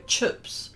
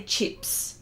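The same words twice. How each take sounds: First: 'chips' drawn out as 'chups'; New Zealand 'chips'. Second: Said in the usual way. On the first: Shown as a demonstration. Host showing how New Zealanders go, 'chips' as chups. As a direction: say 'chips' with the Kiwi vowel, like chups. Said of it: "They go chips". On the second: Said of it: "they don't say chips".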